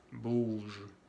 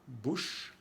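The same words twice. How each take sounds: First: BOUGE ending in buzzed zh; voiced g ending. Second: BOUCHE ending in airy sh; voiceless ch ending. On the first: Teacher contrasting bouge with bouche, buzzed ending. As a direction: keep the voice on through the end of BOUGE. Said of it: "Aquí viene el sonido zh". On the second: Teacher contrasting bouche with bouge, airy ending. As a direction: end BOUCHE on a soft unvoiced sh. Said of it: "que es sh". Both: Shown as a demonstration.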